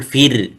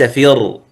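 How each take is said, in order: First: فر with a light, thin ra; correct thin r. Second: فر with a thick, full-mouthed ra; wrong heavy r. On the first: Teacher demonstrating the correct فر to students, thin ra. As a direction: say فر with the ra softened, not heavy. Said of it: "فتقول فر، ليس فر". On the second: Teacher showing students the wrong فر, heavy ra. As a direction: say فر with a heavy ra, as a mistake. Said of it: "ليس فر". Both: Shown as a demonstration.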